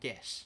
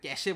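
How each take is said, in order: First: The word ends on the final consonant. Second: The word ends with an extra vowel sound. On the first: The speaker calls it right. "এটার নাম ক্যাশ" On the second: The speaker calls it wrong. "Please আল্লাহ দোহাই লাগি কেউ এটা ক্যাশে বলিস না"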